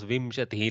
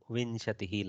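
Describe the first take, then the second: First: The nasal before the sh sounds like m. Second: The nasal before the sh sounds like n. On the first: The speaker calls it wrong. "my South Indian brain goes Vimshatihi like Makara" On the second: The speaker calls it right. "You go correctly nasal for the bindu"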